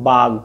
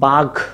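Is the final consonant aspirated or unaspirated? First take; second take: unaspirated; aspirated. First: The final consonant is unaspirated. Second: The final consonant is aspirated. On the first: "গ ছিল অল্পপ্রাণ ধ্বনি" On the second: "ঘ ছিল মহাপ্রাণ ধ্বনি"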